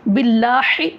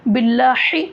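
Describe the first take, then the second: No difference in how they are said.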